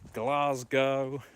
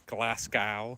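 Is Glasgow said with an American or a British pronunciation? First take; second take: British; American. First: It is said with a British pronunciation. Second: It is said with an American pronunciation.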